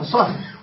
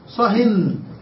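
First: The word ends without an added n sound. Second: The word ends with an added n sound. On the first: Stop talking about this particular topic. "صه الأولى معرفة" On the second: Stop talking in general. "نوناه وقلنا صهن بالتنوين"

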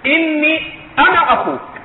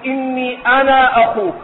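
First: The final vowel of 'ana' is kept short. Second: The final vowel of 'ana' is held long. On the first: The speaker calls it right. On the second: The speaker calls it wrong.

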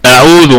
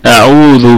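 First: The first vowel is cut short and rushed. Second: The first vowel is held for two beats. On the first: The speaker calls it wrong. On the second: The speaker calls it right.

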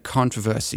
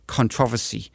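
First: It is said the speaker's usual, non-British way. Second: It is said the British way.

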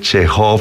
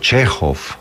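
First: The stress is on the last syllable. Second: The stress is on the first syllable. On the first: The speaker calls it wrong. "uno no dice Chekhov" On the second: The speaker calls it right. "sino Chekhov"

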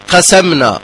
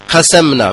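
Both takes have the same delivery.

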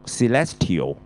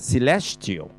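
First: The ending is pronounced letter by letter, as spelled. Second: The ending is pronounced in the usual reduced way. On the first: Few people say it this way. "有人就照讀celestial，不過好少人咁讀嘅" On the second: This is the usual way people say it. "就celestial"

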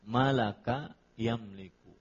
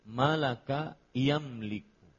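The two takes are said the same way.

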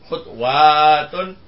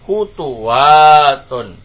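First: The second letter carries no vowel. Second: The second letter carries a u vowel. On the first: "Bacaannya ketiga tetap sukun" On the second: "maka yang kedua di dhamma juga"

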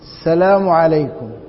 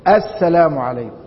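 First: The opening article sound is dropped. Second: The opening article sound is clearly pronounced. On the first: The speaker calls it wrong. "ضاعت الألف واللام" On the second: The speaker calls it right. "الألف من أل في بداية الكلام تكون مقطوعة"

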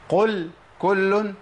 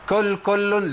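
First: The first word starts with a deep throat q sound. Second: The first word starts with a front k sound. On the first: The speaker calls it right. "لا هي قل كل" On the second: The speaker calls it wrong. "اللي يخليك تبدل القاف بكاف"

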